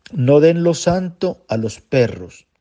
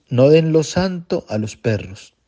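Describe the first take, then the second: The two takes are said the same way.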